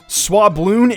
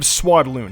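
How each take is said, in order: First: It has a b sound before 'loon'. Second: It has a d sound before 'loon'. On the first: The speaker calls it wrong. "Swabloon instead of Swadloon" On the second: The speaker calls it right. "instead of Swadloon"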